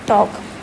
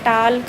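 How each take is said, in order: First: No L sound is pronounced before the K. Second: An L sound is pronounced before the K. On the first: The speaker calls it right. "तो हम बोल रहे हैं वॉक, टॉक" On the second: The speaker calls it wrong. "हमने ऐसे नहीं बोला ना वाल्क या टाल्क"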